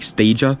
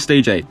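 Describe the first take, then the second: First: The name is said as one blended word. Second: The name is said as 'stage' then 'A'. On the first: This is how some other people say it. "there are people that pronounce this in different ways, like Stagia" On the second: This is the speaker's own way of saying it. "I'm pronouncing it Stage A"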